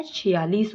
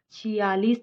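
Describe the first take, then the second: First: "छियालीस" with short "chhi"; correct short i. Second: "छियालीस" with drawn-out "chhee"; wrong long i. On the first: Teacher gives the correction, short "chhi" in "छियालीस". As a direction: keep छि quick in "छियालीस". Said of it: "होता है". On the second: Teacher rejects the misspelling, long "chhee" in "छियालीस". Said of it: "नहीं होता है". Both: Shown as a demonstration.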